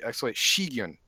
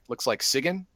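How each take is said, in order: First: The name begins with an sh sound. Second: The name begins with a plain s sound. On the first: The speaker calls it right. "but it's actually Shigyun" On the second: The speaker calls it wrong. "it actually looks like Sigyn"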